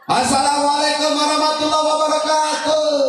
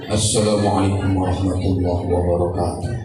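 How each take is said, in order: First: The greeting is said high and loud. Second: The greeting is said low and soft.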